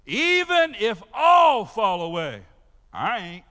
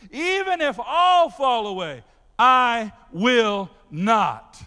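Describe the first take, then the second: First: Shouted, slow, defiant boast; Peter's boast. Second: Loud, with "I will not" dragged out very slowly; emphatic vow. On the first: Pastor voicing Peter's boast to Jesus, shouted and defiant. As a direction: throw the vow out like a challenge. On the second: Peter swearing loyalty to Jesus, every word of "I will not" drawn out. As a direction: land "I will not" word by word, slow and heavy. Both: Acted. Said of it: "y'all got this?".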